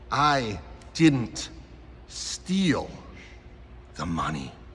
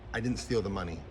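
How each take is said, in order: First: It is said with lively, varied pitch. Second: It is said in a flat monotone. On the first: The speaker calls it right. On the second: The speaker calls it wrong.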